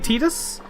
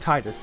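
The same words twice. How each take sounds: First: The first syllable does not sound like 'tide'. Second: The first syllable sounds like 'tide'. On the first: "I've heard people say Titus" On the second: "I stick with Titus because tide"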